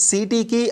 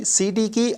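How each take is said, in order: No difference in how they are said.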